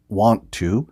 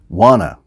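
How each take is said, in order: First: The two words are said fully and separately. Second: The two words are blended into one reduced form.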